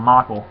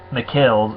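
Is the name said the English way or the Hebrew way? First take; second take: English; Hebrew. First: The name is said like the English name Michael. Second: The name is said with its Hebrew pronunciation. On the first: The speaker calls it wrong. "not Michael" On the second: The speaker calls it right. "is what the Hebrew pronunciation is"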